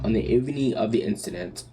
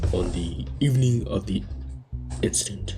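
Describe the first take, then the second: First: It is said in the speaker's normal voice. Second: It is said in a put-on deep voice.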